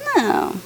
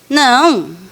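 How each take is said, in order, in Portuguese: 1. A palavra soa suave e hesitante. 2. A palavra soa firme e indignada. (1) "que não é tão não assim, que já virou um é, pode ser" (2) "dizer não, Gina, que absurdo"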